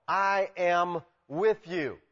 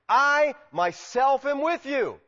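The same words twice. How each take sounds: First: "I am with you" said slowly, word by word at usual pitch; measured emphasis. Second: "I myself am with you" high and slow, each part punched; strong emphasis. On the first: God reassuring Paul, slow and deliberate "I am with you". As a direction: space out "I am with you" evenly. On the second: Preacher rendering the emphatic Greek, heavy stress on "I myself am with you". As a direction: stretch and lift "I myself", then land "with you". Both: Acted. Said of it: "it's emphatic in the Greek".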